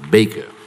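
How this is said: The name is pronounced the American way. This is how the name was said originally. The speaker calls it wrong. "non pas Baker"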